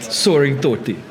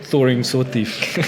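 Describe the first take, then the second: First: The first word starts with an S sound. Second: The first word starts with a TH sound. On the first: The speaker calls it right. "I said it right" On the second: The speaker calls it wrong. "not the"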